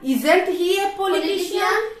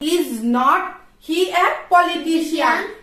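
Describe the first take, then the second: First: Is and not merge into one short syllable. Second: The words is and not are said separately. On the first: "শর্টে is not কে বলে isn't" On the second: "is not"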